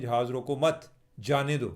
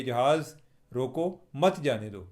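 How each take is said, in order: First: जहाज़ रोको मत, then a break before जाने दो; pause after मत. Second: जहाज़ रोको, then a break before मत जाने दो; pause after रोको. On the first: Host showing the reversed meaning by moving the comma, pausing after मत. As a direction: put the comma after मत, keep रोको मत together. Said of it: "comma डाल दें". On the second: Host showing how a comma changes meaning, pausing after रोको. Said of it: "comma डालने से". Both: Shown as a demonstration.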